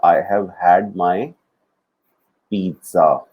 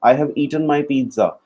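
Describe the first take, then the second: First: Each word drawn out slowly for the class; slow teaching demo. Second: Slow, clear model sentence; slow teaching demo. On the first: Teacher modelling a sentence for students, very slow. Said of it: "So ये वाला जो had है". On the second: Teacher modelling the correct sentence, slow. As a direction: lay each word down for the student. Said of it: "पर तेरे को eat नहीं बोलना". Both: Shown as a demonstration.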